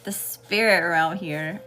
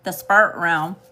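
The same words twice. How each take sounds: First: "spirit" said slowly in two clear syllables, "spi-rit"; slow down and sound out "spirit" properly; careful correction. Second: Southern accent slip. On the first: Shown as a demonstration. Reader correcting her southern "spirit", said slow and clear. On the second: Real, not acted. Reader noticing her own southern accent on "spirit". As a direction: let the southern accent take "spirit" as "sprt". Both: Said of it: "y'all hear my southern accent coming out".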